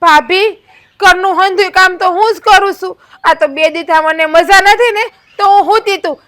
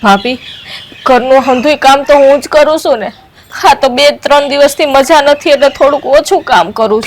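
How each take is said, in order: First: Mild mock of her whining; lightly mocking the young wife; mocking imitation. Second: Loud, defensive shouting; aggrieved loud retort; loud protest. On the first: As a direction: parrot her words with scorn. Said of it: "પાછી તો ઉપરથી એમ કે". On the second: Acted. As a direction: shout back in self-defence. Shouting back at sister-in-law.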